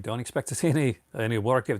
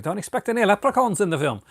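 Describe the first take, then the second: First: Said in the usual way. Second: Put-on a clumsy, much higher stab at a British accent; horrible UK accent. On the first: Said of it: "what a horrible accent". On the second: Warning viewers off the film in a bad UK accent. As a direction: mangle a UK accent on purpose, pitched way up. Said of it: "Oh my God, what a horrible accent".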